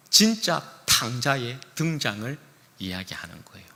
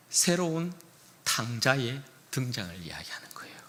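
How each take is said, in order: First: Pastor emphasising the real prodigal; stress on 진짜. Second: Whispered 탕자의 등장을, set up softly; hushed. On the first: Repeated line, second emphatic. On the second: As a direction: breathe it as a secret. Repeated line, first hushed. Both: Shown as a demonstration.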